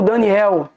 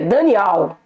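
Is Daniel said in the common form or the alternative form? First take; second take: common; alternative. First: Daniel is said in its usual, common pronunciation. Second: Daniel is said in a different, alternative pronunciation. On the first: This is the form the name took in pagan use. The speaker calls it wrong. "Mas Daniel é um nome paganizado" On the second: This is the original form of the name. The speaker calls it right. "A expressão correta é Daniel"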